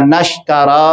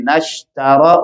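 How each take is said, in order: First: Said in the usual way. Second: نشترا short, no letter lengthened; no stretched letters. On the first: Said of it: "نشترا نہیں کہیں گے". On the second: Shown as a demonstration. Teacher corrects نشترا for the students. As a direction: keep نشترا tight, nothing drawn out. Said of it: "باقی حروف کی ادائیگی نہیں بڑھنے پائے".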